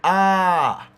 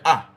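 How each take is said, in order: First: The vowel is stretched and prolonged. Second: The vowel is short and clipped. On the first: "it's more stretched, it's more long, it's more prolonged" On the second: "you just hear ah, and it done"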